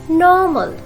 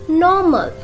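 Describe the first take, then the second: No difference in how they are said.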